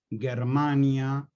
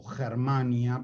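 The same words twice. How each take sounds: First: "Germania" with a hard g, as in Latin; Latin pronunciation. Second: "Germania" with a Spanish jota at the start; local Spanish pronunciation. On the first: Teacher citing the Latin word, "Germania" with hard g. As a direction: say "Germania" starting with a hard g sound. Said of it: "pronunciada co-, como la pronunciaríamos nosotros". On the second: Teacher saying it as we would, "Germania" with jota. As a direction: say "Germania" starting with a throaty h sound. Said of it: "como la pronunciaríamos nosotros". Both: Shown as a demonstration.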